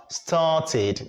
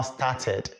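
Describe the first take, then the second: First: "started" ending in a clear "tid"; correct -id ending. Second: "started" ending in "ted", with an open e; mispronounced -ed ending. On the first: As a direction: model "started" slowly as STAR-tid. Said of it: "have to be pronounced as started". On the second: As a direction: demonstrate the mistake "started" as STAR-ted. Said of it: "not started". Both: Shown as a demonstration.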